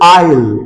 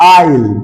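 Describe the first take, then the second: Both takes have the same delivery.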